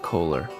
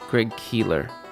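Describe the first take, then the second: First: The first vowel sounds like 'oh'. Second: The first vowel sounds like 'ee'. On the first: The speaker calls it wrong. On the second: The speaker calls it right.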